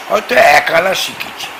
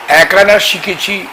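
First: Said in the usual way. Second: Slow, higher repeat with আনা leaned on; stress on আনা. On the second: Shown as a demonstration. Guru stressing he learned only a little tantra, আনা slowed and lifted. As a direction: dwell on আনা, humble emphasis.

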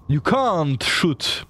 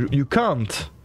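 First: Can't drawn out slow and high with a clear final T; You can't shoot, slowly, pressing hard on can't; stress on can't. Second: Said in the usual way. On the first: Shown as a demonstration. Streamer correcting his English, stressing can't slowly. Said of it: "L'apostrophe T est important".

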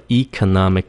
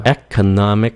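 First: Economic starting with ee; long E variant. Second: Economic starting with eh; short E variant. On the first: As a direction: say "economic" as ee-co-NOM-ic. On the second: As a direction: say "Economic" as eck-o-NOM-ic. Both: Shown as a demonstration. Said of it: "cái nào cũng được".

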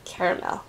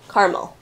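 First: "Caramel" as CARE-uh-mel, softly; three-syllable pronunciation. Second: "Caramel" as CAR-mul; two-syllable pronunciation. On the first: Comparing versions for viewers, "Caramel" as CARE-uh-mel. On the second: Comparing versions for viewers, "Caramel" as CAR-mul. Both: Shown as a demonstration. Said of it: "How do you guys say it".

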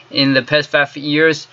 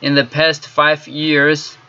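The two takes are said the same way.

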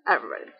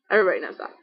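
First: Much lower, softer sarcastic repeat of Everybody; a low muttered Everybody for effect; deadpan aside. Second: Said in the usual way. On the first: Real, not acted. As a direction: drop Everybody low and quiet, dry.

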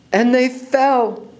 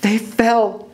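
First: High, very slow repeat; slow-motion dramatic narration, pitched up; drawn-out suspense. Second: High, suspenseful statement; high storyteller's cliffhanger; dramatic narration. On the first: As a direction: stretch the words out like a long fall. Repeat stretches the fall. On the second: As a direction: announce the fall with raised pitch. First telling of the fall. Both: A narrator's reading.

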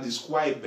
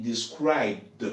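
First: "described" with -ed wrongly sounded as an extra syllable; wrong -ed pronunciation. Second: "described" drawn out slowly, ending in bd without an extra syllable; correct -ed pronunciation. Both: Shown as a demonstration. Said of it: "the pronunciation is not described".

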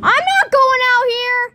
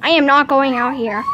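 First: High, loud, frightened protest; scared refusal. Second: "am" stressed, louder, at normal pitch; firm stress on "am". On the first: Refuses to go into storm. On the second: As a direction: refuse firmly, leaning on "am". Repeats refusal word by word. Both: Real, not acted.

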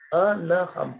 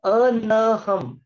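First: Said in the usual way. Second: अनहम drawn out very slowly as अ-न-ह-म; slow classroom spelling-out of अनहम; slow syllable demo. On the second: Shown as a demonstration. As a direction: stretch every syllable of अनहम like a teacher. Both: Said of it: "तीसरा word है".

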